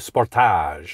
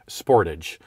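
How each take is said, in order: First: The word is pronounced in a French style. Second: The word is pronounced in an English style. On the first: "They would say Sportage" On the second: "they would never say Sportage"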